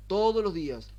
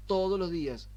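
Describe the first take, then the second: No difference in how they are said.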